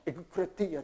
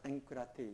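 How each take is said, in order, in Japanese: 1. kの前には硬いgの音が来ます。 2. kの前には鼻音のnの音が来ます。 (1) "エグクラテイヤと言って発音しにくいでしょ" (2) "鼻にかかってエンクラテイヤ"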